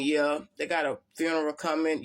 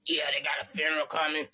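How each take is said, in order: First: Said in the usual way. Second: Lightly imitated evil, demonic voice. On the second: Imitating Terry's phone call about a funeral, mildly evil demon voice. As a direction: put a hint of demon into a retold phone warning. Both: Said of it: "You know the evil ass voice".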